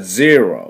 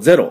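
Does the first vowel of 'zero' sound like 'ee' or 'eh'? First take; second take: ee; eh. First: The first vowel is close to 'ee'. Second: The first vowel is a Japanese-style 'eh'. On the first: The speaker calls it right. "実際は0、0 なんです。E に近いんですね。" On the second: The speaker calls it wrong. "日本人どうしても0 って言ってしまいますが"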